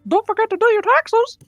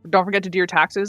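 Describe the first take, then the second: First: It is said in a Mickey Mouse voice. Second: It is said in the speaker's normal voice.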